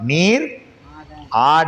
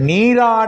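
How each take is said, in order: First: It is said as two separate words. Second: It is said as one joined word. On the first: You are made to dance. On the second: He goes to bathe.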